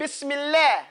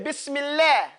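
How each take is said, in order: First: The L sound is light and thin. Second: The same.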